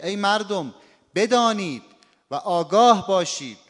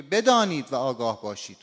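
First: بدانید and آگاه باشید both loud, pitch up; stress on both commands. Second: Said in the usual way. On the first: Shown as a demonstration. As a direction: call out مردم, then punch بدانید and آگاه باشید. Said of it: "هر دو تاش نبر داره". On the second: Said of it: "این دیگه نبر از بین رفت".

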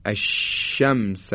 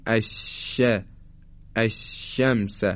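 First: Slow, spread ش in الشمس; correct shin. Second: الشمس with a clipped, breathy ش; الشمس with the ش choked off; faulty shin. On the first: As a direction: let the air spread on ش in الشمس. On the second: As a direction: demonstrate a wrong ش in الشمس. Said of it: "مثل اینکه ما بگیم". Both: Shown as a demonstration.

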